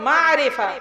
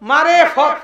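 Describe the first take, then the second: First: It is said as one word, 'marifa'. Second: It is split into two words, 'mare fot'. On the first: It means knowing or recognizing. The speaker calls it right. "শব্দটা হচ্ছে মারিফা" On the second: It is heard as 'path of beating'. The speaker calls it wrong. "তারা বলে মারে ফত"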